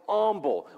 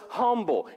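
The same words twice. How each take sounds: First: The word begins with a vowel, no H. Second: The word begins with an audible H sound. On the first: The speaker calls it wrong. "I grew up, it was always humble" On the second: The speaker calls it right. "So it's humble"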